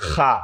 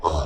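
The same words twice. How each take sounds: First: খা said with a long open a, the wrong way; wrong pronunciation. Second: খ said short and heavy, the right way; correct pronunciation. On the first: Teacher showing students the wrong reading. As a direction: demonstrate the wrong খা with a drawn-out a. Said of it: "খা হবে না". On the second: Teacher showing students the right reading. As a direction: give খ its short heavy sound. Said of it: "হবে". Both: Shown as a demonstration.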